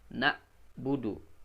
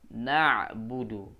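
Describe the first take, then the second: First: The consonant is a glottal stop from the lower throat. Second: The consonant is squeezed from the middle of the throat. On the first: The speaker calls it wrong. "Bukan na, budu. Bukan ke bawah tenggorokan. Jadi hamzah jadinya nanti" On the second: The speaker calls it right. "Tapi naikkan ke tengah"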